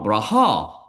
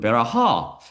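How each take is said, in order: First: No vowel between the first two consonants. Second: A short vowel between the first two consonants. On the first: This is how a teacher taught it. "우리 선생님한테 내가 브라하로 배웠거든요" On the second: This is how rabbis say it. "랍비가 하는 거 보니까 아, 베라하로 발음하더라고요"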